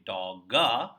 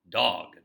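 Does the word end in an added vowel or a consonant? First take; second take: added vowel; consonant. First: An extra vowel follows the final g. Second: The word ends cleanly on the g. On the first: The speaker calls it wrong. "don't say dogga" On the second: The speaker calls it right.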